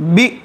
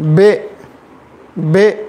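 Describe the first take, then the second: First: The vowel is cut off with a jerk. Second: The vowel sounds like e, not i. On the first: "झटका अगर देंगे तो बी" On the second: "मजहूल अगर पढ़ेंगे बे बे"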